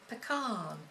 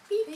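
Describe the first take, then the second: First: It is said the American way. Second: It is said the English way.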